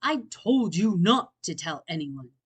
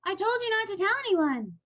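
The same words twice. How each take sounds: First: Glare through the words; angry Bear voice. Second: Higher, louder reproach; upset cry. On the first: Acted. Bear angry at Franklin, glaring. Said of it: "Bear glared". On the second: A narrator's reading. Franklin upset, crying out at Fox. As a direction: wail the blame at him. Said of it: "cried Franklin".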